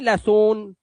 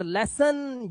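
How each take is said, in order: First: लेसन ending in a long "sone"; wrong ending. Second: लेसन ending in a short "sun"; correct ending. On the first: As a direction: show the mistake, लेसन as "less-ohn". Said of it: "नहीं". (लेसन को "लेसोन" बोलना) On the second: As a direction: say लेसन with uh in the second syllable. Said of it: "आ की आवाज". (लेसन के अंत में अ) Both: Shown as a demonstration.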